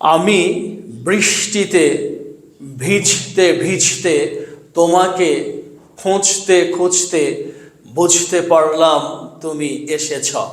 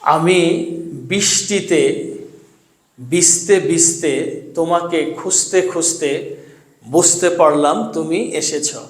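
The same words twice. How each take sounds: First: Each sound is articulated carefully and distinctly. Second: Sounds are pronounced loosely, like everyday speech. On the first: The speaker calls it right. "এখন এই বাক্যগুলো আমি শুদ্ধ উচ্চারণে পড়ব" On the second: The speaker calls it wrong. "শুদ্ধ উচ্চারণ ছাড়া আমরা যেভাবে কথা বলি"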